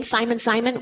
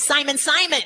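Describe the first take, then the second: First: Said in the usual way. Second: Name called twice, pitched a little up; calling a name out. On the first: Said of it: "a double name". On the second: Acted. Preacher voicing Jesus calling Simon by his old name, lightly called out. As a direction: call out to him, once and once more. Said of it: "he's calling it out twice".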